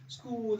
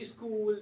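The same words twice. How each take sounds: First: Said in the usual way. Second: "school" with a short i before the s; added initial vowel. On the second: Shown as a demonstration. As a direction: say "school" as "is-kool". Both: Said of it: "it should not be like that".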